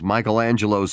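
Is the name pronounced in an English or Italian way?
English. The name is said with English pronunciation. The speaker calls it wrong.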